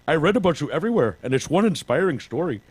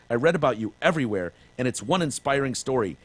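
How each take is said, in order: First: It is read in a put-on character voice. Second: It is read in his natural voice.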